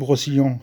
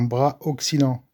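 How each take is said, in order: First: The two words are run together into one. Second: The two words are kept separate. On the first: This is the speaker's habitual casual name for the part. The speaker calls it wrong. "Moi, je dis le brossillant" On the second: This is the proper name of the part. The speaker calls it right. "Mais non, ça s'appelle un bras auxiliant"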